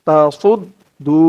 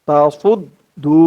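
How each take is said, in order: No difference in how they are said.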